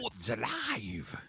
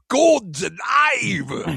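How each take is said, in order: First: It is said flatly and plainly. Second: It is shouted dramatically and excitedly.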